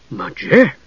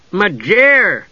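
First: Shocked echo with a rising question. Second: High, falling, helpful interjection; inserted interjection. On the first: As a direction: repeat the name as a stunned question. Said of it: "repeated in shock". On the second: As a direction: pop the name in, pitched high. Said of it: "Tass inserted". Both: A narrator's reading.

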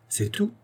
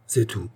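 First: "c'est tout" rising high and soft, as a question; high, hushed query on "c'est tout". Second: Said in the usual way. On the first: A narrator's reading. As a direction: ask "c'est tout" in surprise, pitch leaping up. Questioning echo, then flat answer.

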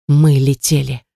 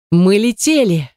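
First: Said in the usual way. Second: Higher, slow, drawn-out exclamation; exultant. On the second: A narrator's reading. Narrator realising the shuttle broke free, exultant. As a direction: stretch it out in amazed triumph. Repeated in joy at escaping.

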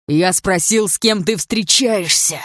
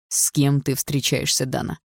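First: Loud, drawn-out furious demand; angry hiss. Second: Slow, measured questioning; controlled demand. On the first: Andrei repeating his question to Dana, loud angry hiss. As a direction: force each word out in anger. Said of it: "прошипел он". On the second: Andrei questioning Dana while gripping her shoulder, slow controlled menace. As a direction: press her slowly, holding the anger in. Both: A narrator's reading.

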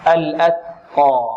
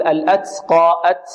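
First: Slow الأتقى with a clean, airy t; whispered-release ta. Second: الأتقى with the t hissing into "ts"; s-tinged ta. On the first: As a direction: release breath after the ت of الأتقى, no s. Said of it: "مهموسة". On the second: Teacher imitating a common mistake, ta smelling of seen. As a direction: let an s leak after the ت in الأتقى and أت. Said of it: "فيأتي برائحة السين فيها". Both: Shown as a demonstration.

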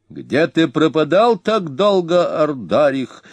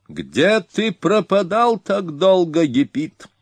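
First: High, slow, harsh shout at the king; a high grating voice stretching пропадал; sharp shrill cry. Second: Very high, slow mocking call; an arrogant young Hun sneering from the saddle; insolent barbarian. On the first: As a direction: call out high and unpleasant, dragging пропадал. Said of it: "резким, высоким, неприятным голосом крикнул". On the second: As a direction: taunt the king from high up, drawing out пропадал. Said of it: "продолжал дерзкий варвар". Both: A narrator's reading.

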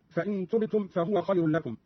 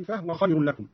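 First: Said in the usual way. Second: فهو said "fah-wa", no vowel on the ha; vowelless ha. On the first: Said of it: "قرأ قالون بإسكان الهاء". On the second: Shown as a demonstration. Teacher shows Qalun's reading, فهو as "fah-wa" with silent-vowel ha. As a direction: close the first syllable of فهو on h. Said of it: "بإسكان الهاء".

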